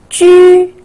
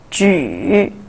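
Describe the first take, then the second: First: The pitch stays high and level. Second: The pitch dips low, then rises.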